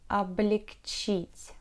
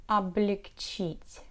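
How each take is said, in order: Both takes have the same delivery.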